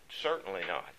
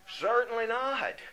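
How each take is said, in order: First: Said in the usual way. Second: High, ringing "Certainly not", hitting "not" with a falling tune; emphatic answer. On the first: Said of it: "emphatic answer". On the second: Shown as a demonstration. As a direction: proclaim "Certainly not" as a firm verdict, pitched high. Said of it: "follows it up with an emphatic answer".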